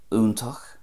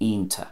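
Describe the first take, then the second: First: It starts with an oo sound, ending in ach. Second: The final ch is dropped, ending in ta. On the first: "Munster, a definite oo sound" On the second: "Ulster, lose the ch at the end"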